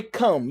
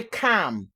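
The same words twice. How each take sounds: First: "calm" said plainly as kam, the way some people teach it; "calm" with a flat kam, the version she calls a lie; wrong pronunciation. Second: "calm" with a breathy, aspirated k: kʰam; "calm" with a puff of air on the k; aspirated pronunciation. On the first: Teaching viewers, she gives the wrong way to say "calm": kam. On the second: Teaching viewers, she gives the right way to say "calm": kʰam. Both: Shown as a demonstration. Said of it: "I want to teach you how to pronounce calm".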